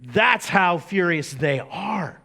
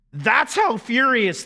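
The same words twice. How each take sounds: First: Said in the usual way. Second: Voice cracking. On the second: Real, not acted. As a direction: voice cracks on a loud, high cry. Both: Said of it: "yes, my voice just cracked".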